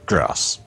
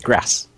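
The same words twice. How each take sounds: First: It has a long A vowel. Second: It has a short, sharp A vowel.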